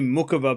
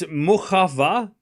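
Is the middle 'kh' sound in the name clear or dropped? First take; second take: dropped; clear. First: The name is said quickly, the 'kh' reduced. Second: The middle 'kh' sound is pronounced clearly. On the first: "I say Mukova because I'm saying it quick" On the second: "I'm saying it's Mukhava"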